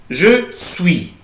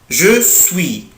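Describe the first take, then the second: Both takes have the same delivery.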